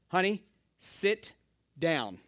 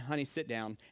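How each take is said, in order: First: It is said with a long pause. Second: It is said without a long pause.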